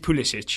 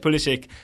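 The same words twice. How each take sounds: First: The name is said with Croatian pronunciation. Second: The name is said with American pronunciation. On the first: This is how the name is said in its home language. "the correct Croatian pronunciation" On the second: This is how the player's own family says the name. "his family says Pulisic"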